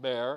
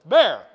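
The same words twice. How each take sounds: First: The word is said softly and weakly. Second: The word is said loudly and forcefully. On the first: The speaker calls it wrong. "not bear" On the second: The speaker calls it right. "You gotta be forceful"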